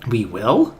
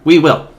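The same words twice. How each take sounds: First: It sounds doubtful and questioning. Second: It sounds upbeat and cheerful.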